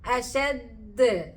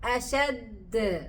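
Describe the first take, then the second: No difference in how they are said.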